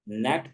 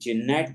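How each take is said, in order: First: The word starts with an n sound. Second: The word starts with a g sound. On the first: The speaker calls it right. "नेट पढ़ा जाएगा" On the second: The speaker calls it wrong. "बल्कि जिनेट नहीं पढ़ा जाएगा"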